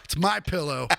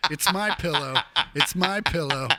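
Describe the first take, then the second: First: Mocking My Pillow pitch. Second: Mock pitch dissolving into laughter; mock My Pillow line, laughing; laughing through it. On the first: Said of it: "Lindell, you fucking scam artist". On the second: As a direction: repeat the slogan while cracking up. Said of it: "It feels like it".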